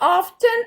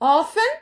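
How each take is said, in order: First: The t sound is pronounced in the middle. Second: The t sound is silent in the middle. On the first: The speaker calls it wrong. "It's not" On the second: The speaker calls it right. "അതിൽ ടി silent ആണ്"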